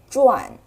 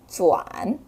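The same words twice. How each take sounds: First: It is said with a sharp falling tone. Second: It is said with a low dipping tone. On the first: It means spinning around. "As for the fourth tone 转, mostly it refers to spinning" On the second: It means turning the direction. "The third tone 转 mostly refers to turning the direction"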